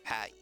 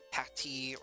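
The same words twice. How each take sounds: First: The middle T is dropped with no sound. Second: The middle T is a clear hard T. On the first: "or no noise at all" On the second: "it's either hard T"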